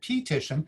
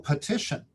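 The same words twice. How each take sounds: First: The first vowel is a long 'ee' sound. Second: The first vowel is a weak 'uh' sound. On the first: The speaker calls it wrong. "they read the long E" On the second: The speaker calls it right. "to the schwa sound"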